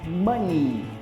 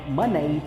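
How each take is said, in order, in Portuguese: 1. A palavra termina com o som de vogal 'ee'. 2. A palavra termina com o som de vogal 'eh'. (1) "e sim money" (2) "não é money"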